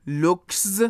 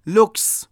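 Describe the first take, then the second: First: "looks" with a buzzed z at the end, "lookz"; awkward voiced ending. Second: "looks" ending in a hissed s; final voiceless s. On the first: Teacher shows the hard-to-say version, "looks" ending in z. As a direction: force a voiced z after the k in "looks". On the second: Teacher gives an example of the s ending, "looks" with voiceless s. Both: Shown as a demonstration.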